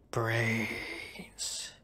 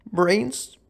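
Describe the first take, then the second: First: Unvoiced whisper, like a zombie. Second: Higher, louder questioning take; puzzled question. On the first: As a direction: breathe it out as a zombie. Zombie moan, then question. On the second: Pretend. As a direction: ask it back, confused. Echoes the word puzzled.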